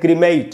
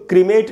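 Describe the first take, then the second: First: The second vowel glides from 'e' toward 'ee'. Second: The second vowel is a plain 'e' sound. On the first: The speaker calls it right. "एक ई भी लिखी है मैंने इसमें" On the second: The speaker calls it wrong. "मैंने इसको क्रीमेट नहीं लिखा"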